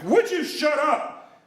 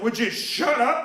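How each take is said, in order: First: High, drawn-out angry outburst; screaming at him. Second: Higher, slow, exasperated retort; annoyed demand. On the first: Moviegoer grabbing the talker's knee, acted angry scream. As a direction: blow up, much higher and slower. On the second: Irritated moviegoer to the talker behind him, exasperated. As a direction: say it slowly, with restrained annoyance. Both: Retold or imitated. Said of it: "screaming at you during a movie".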